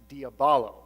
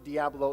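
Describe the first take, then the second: First: The word is said with four syllables. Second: The word is said with three syllables. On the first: This is the original form of the name. The speaker calls it right. "which is actually diabolo" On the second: This is the common altered form of the name. The speaker calls it wrong. "a mispronunciation of the original name"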